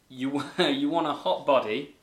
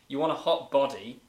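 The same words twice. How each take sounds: First: The vowels are bent to rhyme like the song. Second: The words are said plainly, without forcing a rhyme. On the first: It copies the singer's delivery. "I've obviously read it in the way that she" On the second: It is just reading the words. "I'll read it without it even trying to rhyme"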